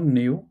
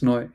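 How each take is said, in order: First: New with a "nyu" sound, as the mistake; wrong neu demonstrated. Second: Put-on noi rhyming with boy; correct German neu. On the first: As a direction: show the wrong reading "new". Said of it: "No, not new". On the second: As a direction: model noi with the oi sound. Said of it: "oi is the hint". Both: Shown as a demonstration.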